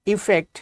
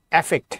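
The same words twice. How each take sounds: First: ইফেক্ট said with an i sound at the start; ইফেক্ট begins with ই, as in effect; effect said for the demo. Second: অ্যাফেক্ট said with an a sound at the start; অ্যাফেক্ট begins with অ্যা, as in affect; affect said for the demo. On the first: Teacher to students, saying ইফেক্ট with an i sound. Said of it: "আবার যদি বলি এরকম যে ইফেক্ট". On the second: Teacher to students, saying অ্যাফেক্ট with an a sound. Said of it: "আবার এটাকে বলি অ্যাফেক্ট". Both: Shown as a demonstration.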